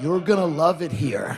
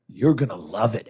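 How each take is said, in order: First: Mock-menacing welcome after a pause; threatening. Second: Low mock-menacing welcome; threatening. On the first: Comic repeats the newcomers' welcome to a visitor, threateningly. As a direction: imitate a welcome that is really a threat. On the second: Comic mimics Texas newcomers welcoming a visitor, threateningly. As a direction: make the friendly welcome a veiled threat. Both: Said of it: "they say it in the most threatening way".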